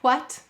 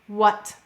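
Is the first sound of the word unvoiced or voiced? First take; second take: unvoiced; voiced. First: The first sound is unvoiced, breathy, without buzz. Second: The first sound is voiced, with throat buzz.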